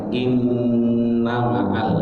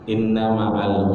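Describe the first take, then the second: First: The double n is held with a nasal hum. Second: The double n is clipped short without nasal hold. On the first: The speaker calls it right. "padahal harusnya inna ma'al, karena dia ada gunanya" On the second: The speaker calls it wrong. "kadang-kadang kita baca"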